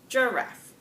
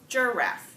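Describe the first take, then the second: First: The stress is on the first syllable. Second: The stress is on the first syllable.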